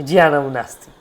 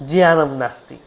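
The two takes are said the same way.

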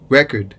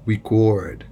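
First: The stress is on the first syllable. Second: The stress is on the second syllable. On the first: It is a noun. "c'est un nom" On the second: It is a verb. "lorsque c'est un verbe, nous prononçons le record"

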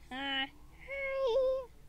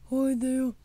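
First: It is said in a teeny tiny baby voice. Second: It is said in Daddy Penguin's voice.

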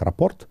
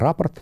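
First: The stress falls where sailors place it. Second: The stress falls where landspeople place it. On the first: This is professional jargon. "Моряки так произносят" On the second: This is everyday usage. "Это для сухопутных"

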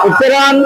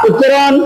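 No difference in how they are said.

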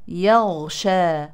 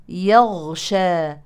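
Both takes have the same delivery.

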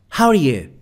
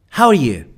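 The two takes are said the same way.

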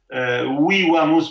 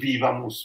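First: The V letters sound like W. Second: The V letters sound like V. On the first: This is classical Latin pronunciation. The speaker calls it right. "perché è tutto sulla U" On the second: This is church Latin pronunciation. The speaker calls it wrong. "non vivamus"

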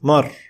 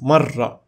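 First: The r sound is short and single. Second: The r sound is held and doubled. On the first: "the difference between a shadda and without a shadda" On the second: "in contrast to the previous example, which is marra"

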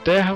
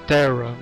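First: The name is pronounced with Portuguese sounds. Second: The name is pronounced with English sounds. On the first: "Eu tô falando Terra" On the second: "a pronúncia em inglês é Terra"

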